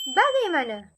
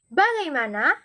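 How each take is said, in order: First: The word ends with an 'e' vowel. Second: The word ends with an open 'a' vowel.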